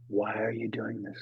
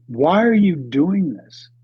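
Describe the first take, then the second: First: Soft, low, inward asking; quiet question. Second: Louder, slow, lifted challenge; emphatic question. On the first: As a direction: let it sink in gently. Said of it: "That was the big lesson". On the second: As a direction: put it straight to the listener. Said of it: "Why did you climb that mountain". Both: Shown as a demonstration.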